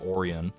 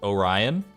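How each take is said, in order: First: The start sounds like the cookie Oreo. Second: The start does not sound like Oreo. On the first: The chocolate sandwich cookie. The speaker calls it wrong. "like I'm talking about delicious cookies" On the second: The constellation and Greek god. The speaker calls it right. "I pronounce Orion as Orion"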